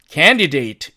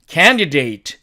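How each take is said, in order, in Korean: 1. d 소리는 분명하게 발음돼요. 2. d 소리는 분명하게 발음돼요.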